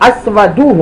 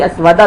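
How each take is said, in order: First: The word ends with a 'u' vowel. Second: The word ends with an 'a' vowel. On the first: The speaker calls it right. "अस्वदु होना चाहिए" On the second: The speaker calls it wrong. "अस्वदा भी गलत है"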